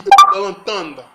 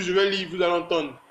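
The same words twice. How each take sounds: First: Suddenly booming out to the viewers; loud burst. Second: Said in the usual way. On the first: Real, not acted. Vlogger hyping his subscribers, loud sudden burst. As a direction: punch it out loud to grab them.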